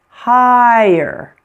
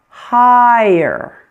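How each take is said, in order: The two takes are said the same way.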